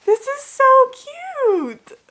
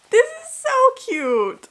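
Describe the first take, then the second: First: Very high, loud, slow squeal; squealing over cute. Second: Very high, slow squeal; delighted squeal. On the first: Opening a gift from her friend, delighted squeal. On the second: Unboxing a gift from her friend, high squeal. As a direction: squeal it again, still delighted. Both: Real, not acted.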